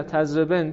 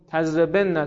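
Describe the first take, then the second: First: "تضربن" as tazreben, with "e" and closed n; light feminine form. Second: "تضربن" as tazrebenna, with "e", double n and final "a"; heavy feminine form. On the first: Teacher reciting the light feminine form after the heavy, "تضربن" as tazreben. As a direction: stop "تضربن" on a single n. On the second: Teacher reciting the heavy feminine form, "تضربن" as tazreben-na. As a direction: hold the nn of "تضربن" before -na. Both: Shown as a demonstration. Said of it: "خفیف و ثقیل است".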